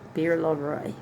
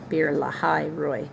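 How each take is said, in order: First: The middle part is a single short syllable. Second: The middle part has two syllables, la-hai. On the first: The speaker calls it wrong. "Actually, I'm pronouncing that wrong" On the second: The speaker calls it right. "Lahai, L A H A I"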